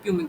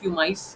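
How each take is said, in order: First: The word ends with an 'ick' sound. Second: The word ends with an 'ice' sound. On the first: "mainly इसको प्यूमिक बोला जाता है" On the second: "कहीं पे इसको प्यूमाइस pronunciation करते हैं"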